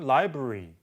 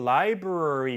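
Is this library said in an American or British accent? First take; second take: British; American. First: The middle vowel is reduced or nearly dropped. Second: The middle syllable is pronounced more fully. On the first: "영국식은" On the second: "미국식으로 library 이렇게 조금 더 발음을 하는데"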